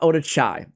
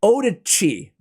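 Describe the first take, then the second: First: The last syllable sounds like 'chai'. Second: The last syllable sounds like 'chee'. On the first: The speaker calls it wrong. "not Oda-Chai" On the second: The speaker calls it right. "it's Oda-Chi"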